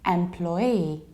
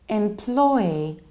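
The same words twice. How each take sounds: First: Stress falls on both the first and last syllables. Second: The only stress is on the middle syllable. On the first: "I have two stresses, and that's why I don't say im, but I say em" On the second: "you have im, but then you stress plo"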